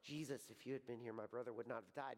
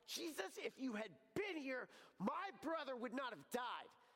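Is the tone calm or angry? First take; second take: calm; angry. First: It is said calmly, without strong emotion. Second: It is said angrily, full of hurt.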